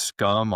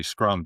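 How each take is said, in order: First: "scum" said without the r, like the word scum; mispronounced as scum. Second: "Scrum" said with a clear r after the sc; correct pronunciation. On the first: Retold or imitated. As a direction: drop the r and say "scum". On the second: Shown as a demonstration. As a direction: put the r back in "Scrum". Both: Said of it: "it's actually Scrum".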